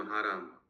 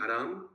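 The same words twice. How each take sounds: First: "हा राम" said as two words, long हा, then राम; "हा राम" as God's name, drawn-out first syllable; split into two words. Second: Said in the usual way. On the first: Shown as a demonstration. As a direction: separate हा from राम, lower-pitched. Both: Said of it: "ये तो पूरा एकदम भगवान का नाम".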